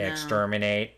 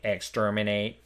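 First: It is said in an American accent. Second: It is said in an American accent.

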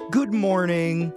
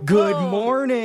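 First: The greeting is said at normal, calm energy. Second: The greeting is said louder, with more energy. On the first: An ordinary first greeting to the room. "If you're one of those people who says" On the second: The room is pushed to answer with more enthusiasm. "come on, you can do better than that"

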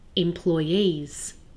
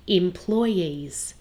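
First: The stress is on the last syllable. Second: The stress is on the second syllable. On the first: "some people put the stress on the last syllable" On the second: "Some people put the stress on the second syllable"

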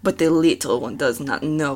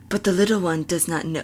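First: It is Esmeralda's usual character voice. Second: It is a changed voice, not Esmeralda's usual one.

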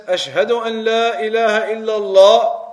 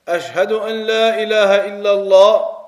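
No difference in how they are said.

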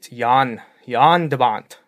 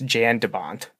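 First: The name is said with a Dutch pronunciation. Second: The name is said with an American English pronunciation. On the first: The speaker calls it right. "Dutch way to say his name" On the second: The speaker calls it wrong. "if you're going to butcher it in American English"

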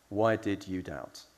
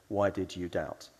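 Both takes have the same delivery.

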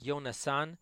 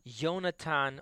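First: The consonant before the final syllable is s. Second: The consonant before the final syllable is t. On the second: "which is actually pronounced as Yonatan"

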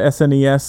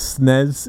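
First: The word does not sound like a sneeze. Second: The word sounds like a sneeze.

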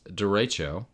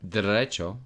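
First: It is said in a plain English accent. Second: It is said in a Spanish accent.

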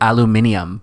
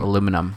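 First: It is said the British way, aluminium. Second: It is said the American way, aluminum. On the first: "the British say things... differently. Like aluminum" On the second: "instead of aluminum"

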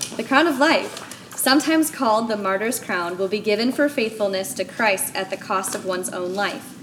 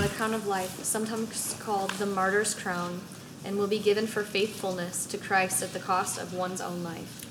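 First: It is read loudly, with authority. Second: It is read in a plain, quiet voice.

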